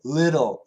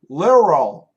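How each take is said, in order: First: The middle consonant sounds like a quick D. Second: The middle consonant sounds like an R. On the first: The speaker calls it right. "it actually sounds like a D" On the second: The speaker calls it wrong. "If the flap T sounds like an R, then little becomes literal"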